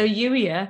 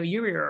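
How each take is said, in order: First: It is said in the speaker's own Welsh-British accent. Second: It is said with an American accent and R.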